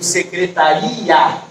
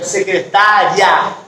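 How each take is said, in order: First: SECRETARIA stressed on the I, ending RI-A in two beats. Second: SECRETÁRIA stressed on TÁ, final IA run together. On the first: Teacher showing the word without accent, stress on RI in secretaria. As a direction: slowly lean on the i of secretaria, separate from a. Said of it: "Quando eu não tenho acento". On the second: Teacher showing the accented word, stress on TÁ in secretária. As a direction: slowly stretch the TÁ in secretária, gliding ia as one syllable. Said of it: "quando eu tenho o acento". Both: Shown as a demonstration.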